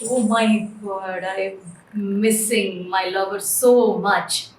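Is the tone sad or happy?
sad. It is said in a sad, desperate tone.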